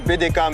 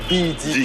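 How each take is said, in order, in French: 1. Les lettres sont épelées à la française. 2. Les lettres sont épelées à l'anglaise. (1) "en français, c'est B D K" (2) "la prononciation en anglais. Ça donne B D K"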